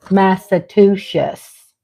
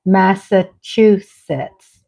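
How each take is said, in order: First: Massachusetts as slow mass-a-TOO-shus; teacher's mispronunciation. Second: Massachusetts as slow mass-a-CHOO-sets; corrected pronunciation. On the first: Host showing what her Southern teacher taught, careful mispronunciation. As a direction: sound out "Massachusetts" slowly, ending in "shus". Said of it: "taught me". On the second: Host showing her husband's correction, careful pronunciation. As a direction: sound out "Massachusetts" slowly, ending in crisp "sets". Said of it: "my husband teaches me it's". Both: Shown as a demonstration.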